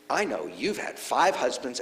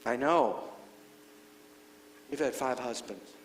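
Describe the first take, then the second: First: It is said in an accusing, gotcha tone. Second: It is said in a gentle, sympathetic tone. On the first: He is catching her out. "aha, ... I've got you?" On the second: He is acknowledging her honesty. "You're telling the truth"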